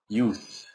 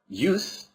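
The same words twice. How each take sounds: First: The word ends with a hissing S sound. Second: The word ends with a buzzing Z sound. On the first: It is the noun. "this is pronounced here use" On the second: It is the verb. "This one is pronounced with a Z"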